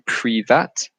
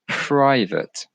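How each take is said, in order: First: The second syllable has a different, altered vowel. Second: The second syllable has the standard English vowel. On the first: The speaker calls it wrong. "mistake the A for a different sound" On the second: The speaker calls it right. "The way we pronounce this word is private"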